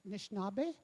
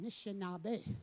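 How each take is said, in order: First: The word's first vowel is dropped. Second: The word's first vowel is kept. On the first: This is how the community's elders say it. "We're Nishnabé" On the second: Elders in the community never say it this way. "You never hear that"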